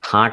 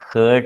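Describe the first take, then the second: First: The vowel is an open 'ah' sound. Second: The vowel is an 'er' sound. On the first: The speaker calls it right. "ഹാർട്ട് എന്നാണ് pronunciation" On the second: The speaker calls it wrong. "Sometimes wrongly pronounced by some people as ഹേർട്ട്"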